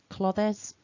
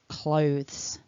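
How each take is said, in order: First: The word is split into two syllables. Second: The word is said as one syllable. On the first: The speaker calls it wrong. "Don't divide it into two syllables. It's not clothes" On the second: The speaker calls it right. "remember it's all one sound"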